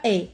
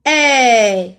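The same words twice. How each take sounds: First: E as a short, closed é; closed é sound. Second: E as a long, loud open è; open è sound. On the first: Teacher names the sound that is absent, short closed é for E. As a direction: say E short, as é with accent aigu. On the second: Teacher isolates the sound in fenêtre, long loud open è for E. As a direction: hold E loudly with the è of fenêtre. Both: Shown as a demonstration. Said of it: "Ce n'est pas E".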